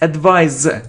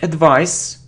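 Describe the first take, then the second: First: The final consonant is a Z sound. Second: The final consonant is an S sound. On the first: The speaker calls it right. "It's advise. Z" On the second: The speaker calls it wrong. "it isn't advice"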